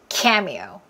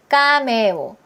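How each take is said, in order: First: It is said with English stress rhythm. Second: It is said flat, with Korean-style syllables. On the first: The speaker calls it right. "그렇죠" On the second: The speaker calls it wrong. "완전 리듬이 없죠"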